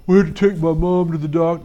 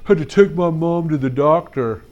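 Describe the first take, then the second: First: A hint of a kid's mumbly excuse voice; lightly voiced boy excuse; Barry's voice. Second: A hint of a kid's mumbly excuse voice, a repeat take; lightly voiced boy excuse again in his voice; Barry's voice. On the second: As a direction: imitate the boy's mumble. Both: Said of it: "that's exactly how he sounds".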